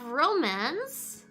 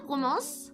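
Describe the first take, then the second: First: It is pronounced with English sounds. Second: It is pronounced with French sounds.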